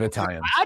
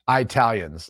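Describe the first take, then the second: First: The word is said in its usual standard pronunciation. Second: The word is said in a mocked, offensive pronunciation. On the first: It is the normal, inoffensive way to say it. The speaker calls it right. "instead of Italians" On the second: It is meant to offend Italians. The speaker calls it wrong. "you want to offend some people, say Italians"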